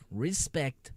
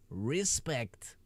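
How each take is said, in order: First: Said in the usual way. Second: Breathy whispered respect; mock reverent whisper. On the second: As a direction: hush it out as a whisper.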